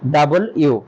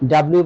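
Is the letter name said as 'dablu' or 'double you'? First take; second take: double you; dablu. First: The letter is said fully as 'double you'. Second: The letter is squeezed into two syllables, 'dablu'. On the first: The speaker calls it right. "এটাকে আমাদের বলতে হবে ডাবল ইউ" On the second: The speaker calls it wrong. "এটাকে ডাব্লিউ বলা যাবে না"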